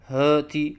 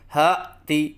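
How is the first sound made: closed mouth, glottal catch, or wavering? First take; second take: closed mouth; glottal catch. First: The first sound is made with the mouth closed. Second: The first sound starts with a glottal catch. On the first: "मुंह बंद करके कहते हैं" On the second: "हमज़ा के साथ कहते हैं"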